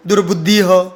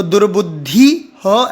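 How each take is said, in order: First: दुर्बुद्धि ह with ह split off, asked back; mock the wrong reading of दुर्बुद्धि ह; wrong visarga as separate ha. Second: दुर्बुद्धि ह with a detached, flat ह; wrong visarga as separate ha. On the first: Teacher questions the wrong reading, detached ह. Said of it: "नहीं". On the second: Teacher shows the wrong way, detached ह. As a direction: say ह as its own syllable after दुर्बुद्धि. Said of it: "ऐसे बोलेंगे क्या". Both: Shown as a demonstration.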